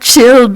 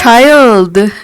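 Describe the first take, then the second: First: It sounds like the word 'chilled'. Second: It sounds like the word 'child'. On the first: The speaker calls it wrong. "not Chilled" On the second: The speaker calls it right. "Child, not Chilled"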